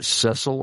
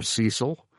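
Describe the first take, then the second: First: Cecil said as SESS-ul; short-e pronunciation. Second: Cecil said as SEE-sul; long-e pronunciation. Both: Shown as a demonstration. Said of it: "I've heard it pronounced both ways".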